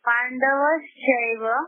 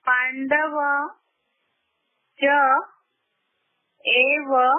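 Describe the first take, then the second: First: The words are joined into one blended word. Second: The words are split apart and said separately.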